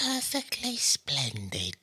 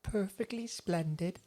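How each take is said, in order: First: Slow, higher prim child imitation; little girl voice. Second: Put-on high, slow prim little girl. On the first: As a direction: echo the prim ghost girl. Echoes the girl's line. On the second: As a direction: say it like a prim ghost child. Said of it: "she's always just like".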